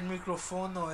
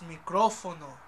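First: The stress falls on a syllable other than the accented O. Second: The stress falls on the accented O syllable. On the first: The speaker calls it wrong. "You That's forgot the acentos. You said microfono" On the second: The speaker calls it right. "It's microfono. ... the O has an acento"

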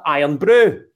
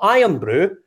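First: The stress falls on the word brew. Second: The stress falls on the word iron. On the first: The speaker calls it right. "but iron brew" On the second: The speaker calls it wrong. "Not iron brew"

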